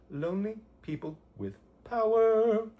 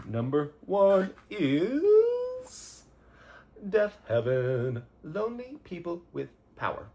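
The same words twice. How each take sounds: First: Hammed-up title call. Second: Slow, much higher and louder announcer voice; grand reveal. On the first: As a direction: belt the album title like a triumphant announcer. Recap of number one pick. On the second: Pretend. Host unveils favorite album of the year, big slow announcer voice. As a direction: stretch it out like a big award reveal.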